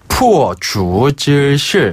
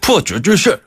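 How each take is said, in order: First: The phrase is said slowly and clearly. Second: The phrase is said quickly and run together. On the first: "두 분이 천천히 해주시니까" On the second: "이렇게 빨리 하지 않을까요?"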